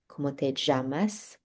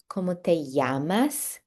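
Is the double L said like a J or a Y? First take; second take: J; Y. First: The double L is said as a J sound. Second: The double L is said as a Y sound. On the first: "unless you're Argentinian, and then it's sort of a, a J sound" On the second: "The double L makes a Y sound"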